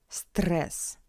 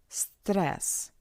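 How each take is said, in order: Both takes have the same delivery.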